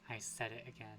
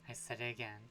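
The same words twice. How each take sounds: The two takes are said the same way.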